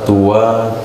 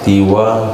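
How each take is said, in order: First: The first vowel is an u sound. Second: The first vowel is an i sound. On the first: "boleh dibaca tua"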